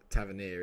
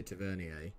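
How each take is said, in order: First: "Tavernier" ending in a plain English "-neer"; anglicised pronunciation. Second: "Tavernier" with a French "-ee-ay" ending; posh pronunciation. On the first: Guessing how the name really goes, "Tavernier" ending "-neer". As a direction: say "Tavernier" the English way, rhyming with "near". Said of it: "It's probably Tav". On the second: Making the player sound posh, "Tavernier" ending "-ee-ay". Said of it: "I like to make him sound posh". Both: Shown as a demonstration.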